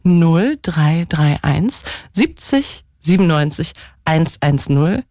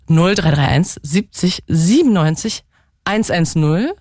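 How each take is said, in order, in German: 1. Die Nummer wird langsam gelesen. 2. Die Nummer wird zügig gelesen. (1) "Ich sag aber nochmal die Nummer ganz langsam" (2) "Ich sag die mal so schnell, finde ich"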